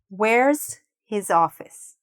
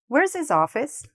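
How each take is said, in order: First: It is said slowly and carefully. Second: It is said at a normal speed.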